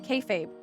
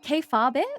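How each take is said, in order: First: It is said with an ordinary English pronunciation. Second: It is said with Japanese-style syllables. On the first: The word is understood to come from wrestling. The speaker calls it right. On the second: The word is taken to come from Japanese. The speaker calls it wrong.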